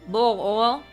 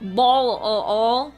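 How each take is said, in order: First: The first word sounds like 'bowl'. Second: The first word sounds like 'ball'. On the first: This is how the speaker claims to say it. The speaker calls it right. "I say bowl of oil" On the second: This is the accented way the speaker denies using. The speaker calls it wrong. "I don't say, um, ball of oil"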